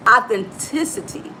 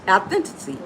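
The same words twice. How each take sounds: First: Said in the usual way. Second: "authenticity" said as authentity; fumbled pronunciation. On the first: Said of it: "but I got it right". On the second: Real, not acted. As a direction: drop the "ci" syllable from "authenticity". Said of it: "I messed that word up".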